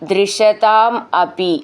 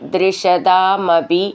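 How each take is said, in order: First: The two words are said separately. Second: The two words are run together as one.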